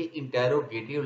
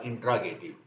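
First: इंटेरोगेटिव in full, with "tero" as two syllables; British-style इंटेरोगेटिव, middle vowels all sounded; British pronunciation. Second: इंट्रागेटिव with the middle squeezed to "tra"; American-style इंट्रागेटिव, one syllable shorter; American pronunciation. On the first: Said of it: "British language में". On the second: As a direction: say इंट्रागेटिव the American way, dropping the "e" after t. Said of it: "American language में बोलेंगे तो ये होगा". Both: Shown as a demonstration.

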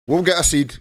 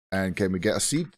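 First: "get" punched higher and louder, falling; stress on get. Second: Said in the usual way. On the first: Shown as a demonstration. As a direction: lean hard on "get", then drop. Reassures himself, emphatic reply.

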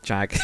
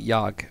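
First: "jag" with a hard English J; English-style jag. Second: "jag" with J said as Y, like "yahg"; Swedish jag. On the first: Learner admitting his habitual misreading, "jag" with English J. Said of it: "but I always think". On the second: Learner telling viewers the proper word, "jag" as "yahg". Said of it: "I don't think". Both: Shown as a demonstration.

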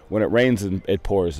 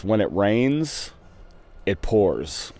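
First: Said in the usual way. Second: Slow, drawn-out rains then pours; proudly recited proverb; saying it out. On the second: Shown as a demonstration. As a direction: savor each word of the saying. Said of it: "I got a new one".

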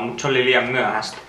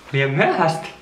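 First: Said in the usual way. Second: Repeating the phrase a little higher in disbelief; wait, what, too late; surprised echo. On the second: Real, not acted. Echoing the spooky letter back in surprise.

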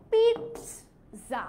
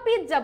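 First: Very slow পিৎজা as peets... za; Italian pronunciation. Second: পিৎজা as pij-ja, j instead of ts; Bengali mispronunciation. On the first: Teacher shows how Italians say it, পিৎজা as slow PEETS-za. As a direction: split পিৎজা after a crisp "ts". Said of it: "ওরা কি বলে?". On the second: Teacher repeats what Bengalis might say, পিৎজা as pij-ja. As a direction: run পিৎজা together with a j sound. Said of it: "আমরা বাঙালিরা এই যে উচ্চারণ করছি". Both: Shown as a demonstration.

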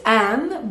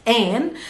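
First: An with an open a, as in aan; an as the formal Arabic -aan; standard dual ending. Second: An turned to ayn, like the end of Bahrain; an as dialect -ayn; dialect dual ending. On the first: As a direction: say an with a wide open vowel. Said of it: "Usually it's an". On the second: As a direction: say an with an ay vowel. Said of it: "in the dialect it's an". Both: Shown as a demonstration.

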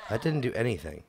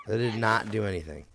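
First: Said in the usual way. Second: "not" set apart and stressed. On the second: Real, not acted. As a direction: hit the word "not" firmly. Emphatic repeat, contraction spelled out.

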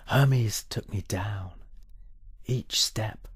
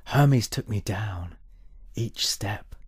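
Both takes have the same delivery.

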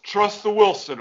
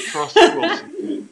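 First: Said in the usual way. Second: High laughing repeat of the line. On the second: Real, not acted. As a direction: break into a laugh mid-line.

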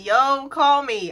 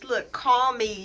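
First: Louder insistence. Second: Said in the usual way. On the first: Real, not acted.

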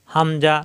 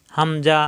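No difference in how they are said.

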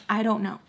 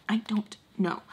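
First: Said in the usual way. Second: Soft whispered repeat. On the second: Real, not acted. Admitting she can't explain petting him, whispered. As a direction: drop into a whisper, as if to yourself.

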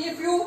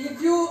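The two takes are said the same way.

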